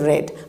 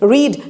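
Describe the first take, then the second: First: The vowel is a short eh sound. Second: The vowel is a long ee sound. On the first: It is the past form of the verb. "Past বা past participle form ... উচ্চারণ আলাদা" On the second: It is the present form of the verb. "রিড যখন first ফর্মে আছে তখন আমি রিড বলছি"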